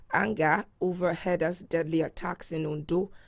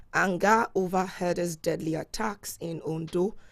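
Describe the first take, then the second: No difference in how they are said.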